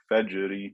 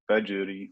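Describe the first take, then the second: No difference in how they are said.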